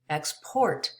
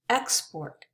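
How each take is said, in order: First: The stress is on the last syllable. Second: The stress is on the first syllable. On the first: It is a verb. "now it's a verb" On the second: It is a noun. "The stress is on the first syllable in most two-syllable nouns"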